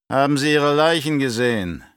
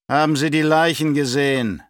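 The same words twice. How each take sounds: First: Raised, demanding baron's question; testy, pitched-up interrogation; growled question. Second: Louder, higher demanding question; irate, raised-voice interrogation; insistent repeat. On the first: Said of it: "knurrte er". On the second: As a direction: press the question harder, losing patience. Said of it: "wiederholte er". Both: A narrator's reading.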